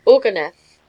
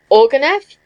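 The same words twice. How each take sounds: First: “Ourganeff” with a falling tune; stated answer. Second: “Ourganeff” higher, louder, rising at the end; echoed question. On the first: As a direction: give “Ourganeff” as a settled answer, pitch dropping. Answers when asked his name. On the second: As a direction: query “Ourganeff” back sharply with rising pitch. Repeats the name back as a question. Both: A narrator's reading.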